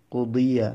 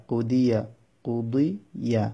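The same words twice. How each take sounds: First: Said in the usual way. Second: কুদিয়া drawn out slowly with a gap before yeah; slow syllables. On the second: Shown as a demonstration. Teacher demonstrating a word for learners, slow syllables. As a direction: stretch কুদিয়া part by part.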